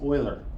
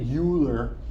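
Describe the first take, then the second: First: The name is said in a German way. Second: The name is said in an anglicized way. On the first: The speaker calls it right. "It's Euler" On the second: The speaker calls it wrong. "Don't say Euler. You'll sound stupid if you say Euler"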